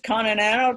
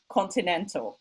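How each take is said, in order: First: The middle t is a quick, soft flap. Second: The middle t is pronounced clearly and crisply. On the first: The speaker calls it wrong. "they pronounce this flap" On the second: The speaker calls it right. "sound incredibly clear and articulate very well"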